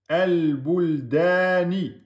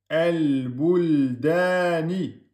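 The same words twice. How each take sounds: The two takes are said the same way.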